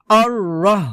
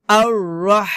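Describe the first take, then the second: First: আর রহ with a light, short final h; incorrect, unstressed h ending রহ; wrong H. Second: আর রহ with a long mid-throat h; strong pharyngeal friction ending রহ; correct throaty H. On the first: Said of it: "এটা হবে না". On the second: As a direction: press out and hold the হ of রহ. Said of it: "হবে". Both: Shown as a demonstration.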